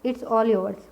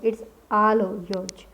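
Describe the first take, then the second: First: The vowel in 'all' is a rounded 'aw' sound. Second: The vowel in 'all' is an open 'aa' sound. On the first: The speaker calls it wrong. "ऐसे बोल सकते हैं it's ऑल yours, पर ऐसे नहीं बोला जाता" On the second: The speaker calls it right. "इसको आल बोलते हैं"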